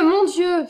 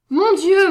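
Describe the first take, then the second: First: A second, falling mon Dieu, still raised; falling cry of shock. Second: High, loud gasped cry of alarm; rising, loud Mon Dieu of alarm; cry of shock. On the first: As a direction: sink into the repeated mon Dieu as it sinks in. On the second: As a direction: cry out the first Mon Dieu at the sight of him. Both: A narrator's reading. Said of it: "s'écrie sœur Agnès".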